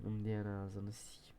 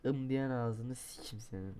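First: Lower, softer whispered curse. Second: Said in the usual way. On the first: Real, not acted. Gamer cursing the game under his breath, whispered. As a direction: hiss it under your breath.

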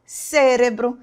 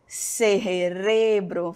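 First: Cérebro the Portuguese way, stressed on CÉ; Portuguese pronunciation. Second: Cerebro the Spanish way, slow stress on RE; Spanish pronunciation. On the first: Teacher gives the correct Portuguese word, cérebro stressed on the first syllable. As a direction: say cérebro as CÉ-re-bro. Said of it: "Porque no português é". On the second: Teacher shows a different-sounding word, slow Cerebro stressed on RE. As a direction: say Cerebro as ce-RE-bro, drawn out. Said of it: "E no espanhol". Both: Shown as a demonstration.

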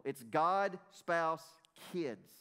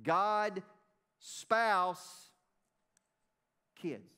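First: Put-on God, spouse, kids listed calmly, each word set apart; God, spouse, kids, said as a plain ordered list. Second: Put-on God, spouse, kids, driven home word by word; emphatic repeat. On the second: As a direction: hammer God, spouse, then let kids fall. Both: Shown as a demonstration. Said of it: "That's biblical".

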